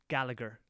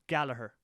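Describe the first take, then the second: First: The name is said the English way. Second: The name is said the Irish way. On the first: "people in England pronounce it Gallagher" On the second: "We pronounce it Gallagher"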